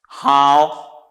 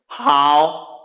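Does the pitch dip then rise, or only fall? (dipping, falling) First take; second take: dipping; dipping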